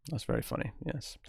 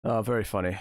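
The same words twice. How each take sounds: First: Quieter, deadpan That's very funny; flat sarcasm. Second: Dry sarcastic very funny. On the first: Deadpan softer reply to the same joke. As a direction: say it dry and softer. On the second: Sarcastic reply to a chat joke. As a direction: roll your eyes at the joke. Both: Real, not acted.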